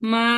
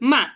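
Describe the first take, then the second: First: The pitch stays high and level. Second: The pitch falls sharply downward. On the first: "প্রথমটা হবে কি" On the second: "fourth tone"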